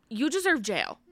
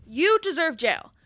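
First: Said in the usual way. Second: Higher, slower, heated declaration; heated repeat. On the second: Real, not acted. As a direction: lean into it, fired up. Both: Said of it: "literally heated right now".

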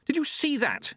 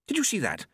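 First: Very high, thrilled exclamation on SEE; more excited. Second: Put-on higher-pitched excited old monk; thrilled monk asking for witnesses. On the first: Acted. Plump monk insisting they saw it, very excited. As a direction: press the question with squeaky-high excitement. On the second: Plump monk after the explosion, excited. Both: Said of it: "looked out excitedly".

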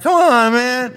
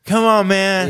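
First: Put-on very high, loud drunken whine; drunk insistence. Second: Louder, higher retold drunken nagging; drunk pleading. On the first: Drunk customer answering a doubtful bartender, high loud whining insistence. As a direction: protest like a drunk being doubted. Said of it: "bartender's like, "Are you sure?". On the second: Shit-faced customer pestering the bartender for a drink, loud mock pleading. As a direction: play a drunk badgering the bartender. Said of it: "I proceed to get shit-faced".

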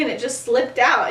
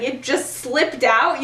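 First: Said in the usual way. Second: Slow, rising disbelief; incredulous. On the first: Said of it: "Sirius is like". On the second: Retold or imitated. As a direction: throw the words back at him. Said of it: "angry Remus".

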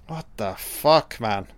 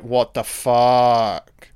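First: Said in the usual way. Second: Very slow, drawn-out father's disbelief; outraged father. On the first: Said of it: "you're like, "What the fuck?". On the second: Retold or imitated. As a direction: stretch it out like a shocked dad. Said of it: "if you're a father, you're like".

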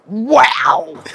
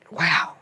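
First: Loud, high, drawn-out marvelling; amazed. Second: Said in the usual way. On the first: Retold or imitated. Retelling herself discovering the grout brush, amazed. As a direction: gush in mock awe.

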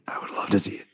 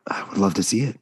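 First: Breathy whispered repeat. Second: Said in the usual way. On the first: Acted. Podcast host whispering his wish to cohosts.

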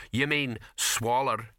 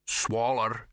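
First: "You mean swaller?" slow, stress on "mean", falling; questioning swaller. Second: "Swaller" said bluntly, falling, as a correction; dialect swaller. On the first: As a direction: ask "You mean swaller?" drawn out, slowly. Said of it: "the other troll". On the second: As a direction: drop "Swaller" as a slow flat correction. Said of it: "said the other troll". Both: A narrator's reading.

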